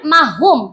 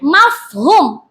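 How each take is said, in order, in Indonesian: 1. Bunyi f dihilangkan. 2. Bunyi f diucapkan dengan jelas. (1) "bukan mahum" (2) "mafhum bukan mahum"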